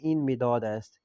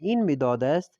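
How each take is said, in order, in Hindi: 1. आख़िर में सुर नीचे गिरता है, बयान की तरह। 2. आख़िर में सुर ऊपर उठता है, सवाल की तरह। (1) "खबरी लहजे में बोलेंगे" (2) "ये भी सवालिया के लहजे में बोला है"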